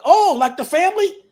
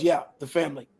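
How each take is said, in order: First: Higher, louder astonished question; surprised realization. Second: Said in the usual way. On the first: Retold or imitated. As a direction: retell it as a sudden, amazed realization. Startled at learning the family name.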